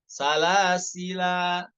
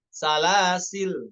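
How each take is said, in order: First: The word ends with a long a vowel. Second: The word ends on the consonant l. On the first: "dengan isbat alif. Itu cara yang lebih utama" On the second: "dengan yang cara kedua dihadzaf alifnya"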